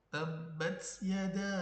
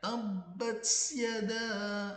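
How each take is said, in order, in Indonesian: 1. Huruf t dilepas hanya dengan sedikit hembusan napas. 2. Huruf t diikuti bunyi desis s tambahan. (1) "Padahal cukup keluar nafas saja gitu" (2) "akhirnya jadinya tabbat yada. Nah, itu sudah berlebih-lebihan"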